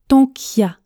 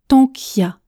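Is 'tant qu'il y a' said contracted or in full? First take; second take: contracted; contracted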